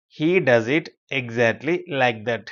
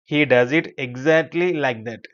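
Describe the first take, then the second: First: Very slow, pausing between word groups; chunked repeat. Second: Slow, even teacher's reading; model sentence. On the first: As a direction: break the sentence up for learners. Teacher repeats it slower, in chunks. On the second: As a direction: read it slowly for learners to follow. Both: Shown as a demonstration.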